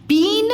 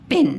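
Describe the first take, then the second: First: पीन with long high ee; गलत लंबी ई. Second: पिन with a very short i; सही छोटी इ. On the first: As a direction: stretch the ई in पीन. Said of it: "कम time लगा इसके उच्चारण". (पीन में ई खींचकर) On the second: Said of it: "तो इसकी छोटी ही लग गया". (पिन में इ छोटी) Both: Shown as a demonstration.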